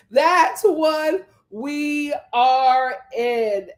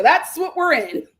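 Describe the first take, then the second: First: Each word of "That's what we are in" spaced out slowly and deliberately; slow emphatic repeat. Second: Said in the usual way. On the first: Shown as a demonstration.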